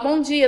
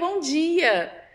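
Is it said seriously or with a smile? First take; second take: seriously; with a smile. First: It is said in a serious, unsmiling tone. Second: It is said warmly, with a smile.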